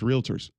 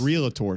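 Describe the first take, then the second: First: The word is said with two syllables. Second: The word is said with three syllables. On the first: This is how ordinary clients name them. "They're just realtors" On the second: This is how the professionals name themselves. "three syllables"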